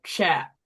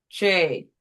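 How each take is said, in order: First: "chap" closed by P, short A; short-vowel first syllable. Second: "che" said as open "chay", long A; long-vowel first syllable. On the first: Teacher tries splitting after the P, short-vowel "chap". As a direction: split after the consonant, so "chap" rhymes with map. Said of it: "Let's try after". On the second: Teacher tries splitting before the P, long-vowel "che". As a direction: split before the consonant, so "che" rhymes with day. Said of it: "Try before". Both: Shown as a demonstration.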